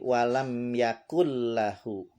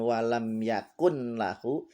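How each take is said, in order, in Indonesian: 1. Bunyi n melebur menjadi bunyi l yang dobel. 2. Terdengar bunyi n yang jelas sebelum lahu. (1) "tapi walam yakul lahu. Ya, nun mati ketemu lam, idgham bila gunnah" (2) "Bacanya bukan walam yakun lahu"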